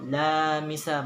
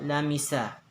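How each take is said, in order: First: The vowels are drawn out and lengthened. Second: The vowels are short and said quickly. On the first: The speaker calls it wrong. "Mali po yun" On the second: The speaker calls it right. "pag binilisan nyo"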